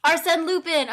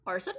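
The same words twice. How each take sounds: First: Arsène Lupin! called out loud and sure; triumphant remembering. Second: Arsène? tentatively, trailing up like a question; unsure guess at Arsène. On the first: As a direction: blurt the name out loud, got it at last. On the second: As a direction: try Arsène? hesitantly, half-remembered. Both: Real, not acted. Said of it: "so I was technically right".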